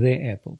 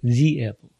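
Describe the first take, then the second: First: The word 'the' is said like 'thuh'. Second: The word 'the' is said like 'thee'. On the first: The speaker calls it wrong. "мы не говорим the apple" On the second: The speaker calls it right. "мы говорим the apple"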